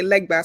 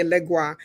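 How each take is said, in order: First: "Legba" said LEG-bah, with a b; pronounced Legba. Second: "Legua" said LEG-wah, with a w; pronounced Legua. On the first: Reader showing name variants, "Legba" pronounced with a b. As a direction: say "Legba" with a hard b before the final ah. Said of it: "Some people say Legba". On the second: Reader showing name variants, "Legua" pronounced with a w. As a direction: say "Legua" with a w glide, no b. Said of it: "some people say Legua". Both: Shown as a demonstration.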